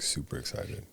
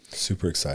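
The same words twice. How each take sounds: First: It is said with lively, excited energy. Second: It is said flatly, without excitement.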